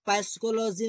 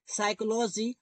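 First: पैसिकोलॉजी with the p wrongly sounded; पैसिकोलॉजी as p-sychology, the mistake. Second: साइकोलॉजी begun on s, p silent; साइकोलॉजी as sy-kology, p unspoken. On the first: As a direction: say पैसिकोलॉजी starting with a clear p. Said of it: "नहीं बोलते हैं". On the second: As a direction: say साइकोलॉजी with no p sound at the start. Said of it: "पैसिकोलॉजी नहीं बोलते". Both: Shown as a demonstration.

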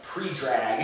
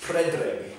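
First: Pre-drag read the English way, PREE-drag; wrong pronunciation. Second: Predrag said as PRED-rahg, short e; correct pronunciation. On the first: Vlogger admitting what he used to say, anglicised PREE-drag. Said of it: "That's what I used to say". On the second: Vlogger correcting what he used to say, native-style PRED-rag. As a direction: say Predrag with "preh", not "pree". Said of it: "But it's Predrag". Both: Shown as a demonstration.

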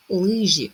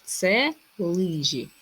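First: Лижі called louder, falling sharply; word called out. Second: Це лижі drawn out slowly, falling at the end; slow reveal. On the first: Teacher calling out the next word, louder. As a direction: announce Лижі firmly. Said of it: "Слово, яке не потрібно перевіряти". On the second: Teacher revealing the riddle answer to pupils, slow. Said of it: "Все правильно". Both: Shown as a demonstration.

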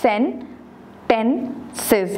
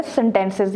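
First: Sentences split into three separate syllables. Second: Said in the usual way. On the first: Shown as a demonstration. Teacher showing a three syllable word, Sentences said syllable by syllable. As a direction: draw out Sentences with a pause between syllables. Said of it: "three syllable word है". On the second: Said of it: "ये हमारे पास three syllable word है".

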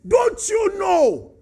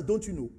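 First: Slow, loud, high rebuke; defiant challenge. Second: Said in the usual way. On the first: Retold or imitated. Moses challenging God, slow, loud and defiant. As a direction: draw out the rude question. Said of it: "But he said". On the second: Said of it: "Do you talk to an elderly person as".

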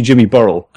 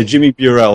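First: "Burrell" said BURR-ul, stress up front; habitual mispronunciation. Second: "Burrell" said byoo-RELL, stress at the end; corrected pronunciation. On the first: Host owning up to misnaming the guest, "Burrell" as BURR-ul. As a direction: say "Burrell" to rhyme with squirrel. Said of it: "I've been calling you Jimmy Burrell". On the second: Host reintroducing the guest correctly, "Burrell" as byoo-RELL. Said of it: "we'll go with Burrell". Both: Shown as a demonstration.

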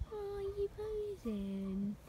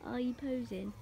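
First: High, very slow teasing coo; baby talk to pet. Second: Said in the usual way. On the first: Acted. Owner teases her posing pet in slow high baby talk. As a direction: stretch it out high like cooing at a puppy.

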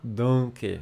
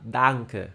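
First: "danke" with a nasalized vowel, like "donke"; wrong nasalized pronunciation. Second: "danke" with a clear open "a", then "nke"; non-nasal pronunciation. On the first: Teacher showing what not to say, nasalized "danke". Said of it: "Hum, não fala danke". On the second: Teacher showing the correct word, non-nasal "danke". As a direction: keep the "a" in "danke" free of nasalization. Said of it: "Não nasaliza". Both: Shown as a demonstration.

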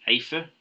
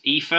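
First: Aoife said as AY-fuh; alternative pronunciation. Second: Aoife said as EE-fuh; pronunciation demo. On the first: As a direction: open Aoife with an "ay" sound. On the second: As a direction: open Aoife with a long "ee". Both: Shown as a demonstration. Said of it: "this is pronounced Aoife".

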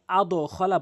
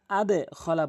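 First: আদো খলা with the bounce rounded to o; faulty আদো খলা, o instead of e; wrong pronunciation. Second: আদে খলা with the দাল bounce sounding downward into e; right pronunciation. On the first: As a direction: show the error: আদো খলা, ending in o. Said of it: "কখনোই আদো খলা বলতে পারবেন না". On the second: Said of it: "আদে খলা বলতে হবে". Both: Shown as a demonstration.

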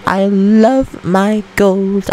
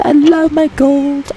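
First: Slow drawn-out coo. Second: Much higher, slow doting coo; high sing-song. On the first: Doting over gold, slower. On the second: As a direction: coo over the gold lovingly. Doting over gold. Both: Acted.

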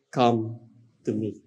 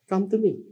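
First: Hushed, lower, gentle call; whisper-close plea to draw them in. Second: Higher, brighter repeat of the invitation; raised pleading call of God; lifted call. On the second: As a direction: reach out with it. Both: Acted. God's call voiced by preacher.

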